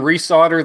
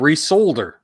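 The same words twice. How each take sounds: First: The L in resolder is silent. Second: The L in resolder is clearly pronounced.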